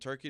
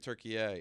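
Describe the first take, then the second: First: It ends on a plain 'ee' sound. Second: It ends with an added 'eh' sound. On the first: This is the usual English name. "return it from Turkey" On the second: This is the name the country uses for itself. "to Turkey"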